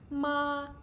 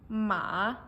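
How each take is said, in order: First: The pitch stays high and level. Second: The pitch falls and then rises. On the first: "first tone. It's a high level" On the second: "Third tone ... falling and then rising"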